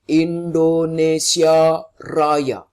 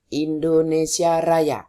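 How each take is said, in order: First: The voice is full and loud. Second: The voice is light and weak. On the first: The speaker calls it right. "Ini contohnya" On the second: The speaker calls it wrong. "Bukan Indonesia Raya. Itu yang keluar suaranya ringan"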